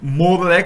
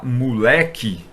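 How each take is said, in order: First: The vowels are pronounced as 'o' and 'e'. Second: The vowels are raised to 'u' and 'i'. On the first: "ao invés de falar" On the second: "troca, né, de o e e, né, por u"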